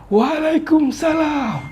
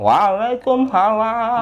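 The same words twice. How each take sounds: First: A deep old man's voice resonating from the chest. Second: An old man's voice with the tongue pushed forward. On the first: "suara kakek-kakek yang suaranya di dada" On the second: "kakek-kakek yang kedua lidahnya di depan"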